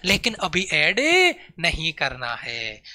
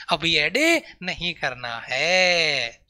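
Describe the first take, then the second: First: लेकिन अभी add, then नहीं करना है drawn out slow; slow down and lean on नहीं in नहीं करना है; slow stress on not. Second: अभी ऐड नहीं करना है very slow, dragging out है; slower repeat. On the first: Teacher warning the class not to add direction yet, slow and stressed. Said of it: "teacher stresses not adding yet". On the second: Teacher repeating the warning to students, very slow. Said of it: "teacher repeats warning slower". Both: Shown as a demonstration.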